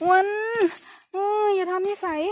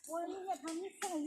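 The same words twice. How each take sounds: First: Sharp, loud rebuke with a falling end; loud, higher scold, falling hard at the end. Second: Much softer rebuke, kept down; soft, hushed telling-off, words falling away; hushed scolding. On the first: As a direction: snap a warning at him. Scolding someone in the forest. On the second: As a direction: scold under your breath so nothing hears. Same rebuke, now trying to stay quiet. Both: Real, not acted.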